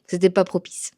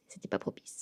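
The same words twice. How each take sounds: First: Said in the usual way. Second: Whispered repeat. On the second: Real, not acted. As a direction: breathe it as a whisper.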